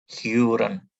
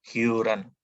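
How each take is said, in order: No difference in how they are said.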